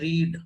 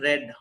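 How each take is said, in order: First: The vowel is a long 'ee' sound. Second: The vowel is a short 'e' sound. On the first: It is the base form of the verb. "जब हम कहते हैं first form तो पढ़ते हैं रीड" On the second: It is the past form of the verb. "जब second form पढ़ते हैं तो पढ़ते हैं रेड"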